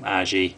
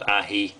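First: Aji is said the common British way. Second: Aji is said the way it should be said. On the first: "over in the UK quite a few people call them Aji" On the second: "Aji should be pronounced Aji"

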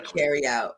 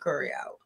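First: The first vowel is said as in 'carry'. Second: The first vowel is said as in 'curry'. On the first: This is not how locals say it. The speaker calls it wrong. "we wouldn't say carry out" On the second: This is the local way of saying it. The speaker calls it right. "we're going to the curry out"

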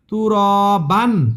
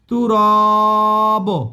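First: The word ends with an n sound. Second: The word ends with a short vowel. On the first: "এটা হবে না।" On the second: "এটাও হবে না।"

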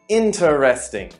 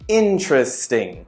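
First: Every syllable of the word is pronounced in full. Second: A middle syllable of the word is dropped. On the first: The speaker calls it wrong. "that sounds a little bit robotic" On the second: The speaker calls it right. "How about interesting"

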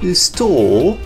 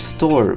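First: It is said in a British accent. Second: It is said in an American accent. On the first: "In British English, we would say store. My British is so good" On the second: "In American English"

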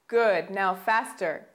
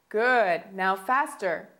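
No difference in how they are said.

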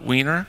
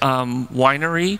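First: The name is said like the word wiener. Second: The name is said like the word winery. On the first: This is a joking nickname. "Those of us with high school mindsets call it Wiener" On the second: This is the official pronunciation. "that's the suggested pronunciation"

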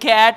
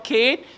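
First: The vowel is short, as in 'cat'. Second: The vowel is long, as in 'Kate'. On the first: The speaker calls it right. "whether you call it cat or Kate" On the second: The speaker calls it wrong. "whether you call it cat or Kate"

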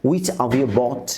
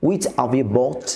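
Both takes have the same delivery.

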